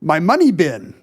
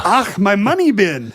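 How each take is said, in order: First: Scottish-accented cartoon miser; Scrooge McDuck. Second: Higher, slow Scottish cartoon miser with throaty "Ach"; hammed-up Scottish burr opening on "Ach"; Scrooge McDuck. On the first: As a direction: practice phrase in a Scottish burr. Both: Shown as a demonstration. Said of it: "The secret is to do Scrooge McDuck".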